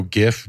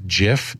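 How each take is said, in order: First: Gif with a hard g as in gift. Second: Jif with a soft j as in jam. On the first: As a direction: say gif starting with a hard g sound. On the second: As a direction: say jif starting with a j sound. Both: Shown as a demonstration. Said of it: "people go gif".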